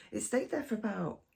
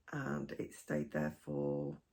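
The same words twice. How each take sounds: First: Said in the usual way. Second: Rough croaky throat, slow and low; hoarse, croaky voice catching. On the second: Real, not acted. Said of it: "sorry, croaky voice".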